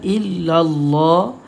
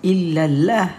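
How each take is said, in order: First: The L in Allah is heavy and thick. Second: The L in Allah is light and thin. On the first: The speaker calls it right. "Kenapa kita baca tebal?" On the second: The speaker calls it wrong. "Kenapa tak baca"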